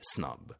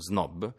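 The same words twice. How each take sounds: First: The initial s is voiceless, like s. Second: The initial s is voiced, like z. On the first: This is how it would be said in English. "dovrebbe essere snob" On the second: This is how everyone says it. "quello che tutti dicono snob"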